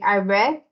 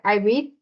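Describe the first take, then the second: First: The word sounds like the color red. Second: The word does not sound like the color red. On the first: The action happened in the past. "In the past, you say ... like red de color" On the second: The action happens in the present. "In present, you say"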